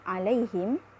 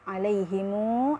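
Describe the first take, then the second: First: The final m ends without any vowel. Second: A short u vowel follows the final m. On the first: "dibaca iskan" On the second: "dibaca dua harkat"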